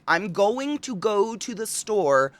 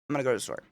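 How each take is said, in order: First: The words are spoken clearly and fully. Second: The words are mumbled and run together. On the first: "instead of being like" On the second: "apparently we mumble"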